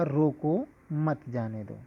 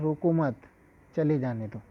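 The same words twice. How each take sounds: First: Slow, with a clear break after "रोको" and "मत जाने दो" run together; pause after रोको. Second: "रोको मत" together with a falling end, then a clear break before "चले जाने दो"; pause after मत. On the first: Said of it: "अल्प विराम लगा दें". ("रोको" के बाद ठहराव, धीरे बोलें) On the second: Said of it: "मत के बाद हम अल्प विराम लगाते हैं". ("मत" के बाद ठहराव, "रोको मत" एक साथ) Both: Shown as a demonstration.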